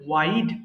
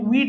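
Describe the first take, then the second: First: The vowel is said 'eye'. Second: The vowel is said 'ee'. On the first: The speaker calls it right. "এটা হবে ওয়াইড" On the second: The speaker calls it wrong. "এটা কিন্তু উইড না"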